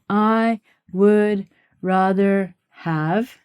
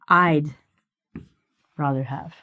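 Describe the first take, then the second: First: 'I would' is said as two full words. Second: 'I would' is shortened to one syllable. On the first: The speaker calls it wrong. "we don't say" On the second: The speaker calls it right. "We say"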